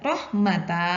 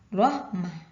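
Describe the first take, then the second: First: The word ends with the sounds -ata. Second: The word ends with the sounds -ah. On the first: The speaker calls it wrong. "Tidak dibaca rahmata" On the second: The speaker calls it right. "tapi dibaca rahmah"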